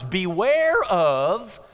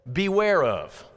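First: Beware stretched slowly, rising on "Beware of"; drawn-out warning. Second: Said in the usual way. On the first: Shown as a demonstration. Preacher re-reading Jesus's words, dragging out "Beware of" with a rise.

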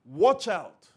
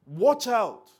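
First: A firm "Watch out." with weight on "Watch"; emphatic warning. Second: Louder, higher, urgent "Watch out."; emphatic warning. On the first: Jesus warning his listeners, "Watch out" firmly stressed. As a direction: drop "Watch out." like a stern caution. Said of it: "that same emphatic warning". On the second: Preacher to congregation, "Watch out" as urgent warning. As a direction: hit "Watch" hard and let it fall. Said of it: "an emphatic warning". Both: Shown as a demonstration.

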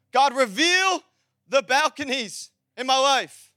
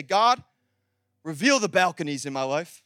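First: "God, reveal" pushed out strongly, then each phrase held; emphatic prayer. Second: Said in the usual way. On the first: Shown as a demonstration. Preacher modelling a prayer for church, emphatic declaration. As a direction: declare it with slow, spaced-out weight. Same prayer repeated with force.

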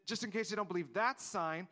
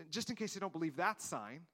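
The two takes are said the same way.

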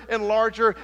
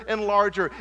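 No difference in how they are said.

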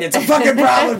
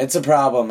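First: High-pitched pretend rage; mock angry outburst. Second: Said in the usual way. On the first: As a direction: blow up in hammed-up defensiveness, much higher. Mock outburst over gaming addiction.

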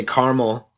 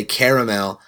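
First: Caramel squeezed into two syllables, CAR-mul. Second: Caramel with every vowel sounded, CARE-uh-mel; three-syllable caramel. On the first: Customer ordering at Starbucks, caramel as CAR-mul. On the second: Customer trying the other way at Starbucks, caramel as CARE-uh-mel. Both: Shown as a demonstration. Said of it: "they always correct me".

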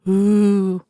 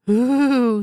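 First: Long drawn-out ghost "ooh"; ghostly voice. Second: Higher, drawn-out ghost "ooh"; insistent mock-ghost moan; louder ghostly voice. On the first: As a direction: play a spook with a sustained wail. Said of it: "in his ghostliest voice". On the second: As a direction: wail it like a spook, pitched up. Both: A narrator's reading.

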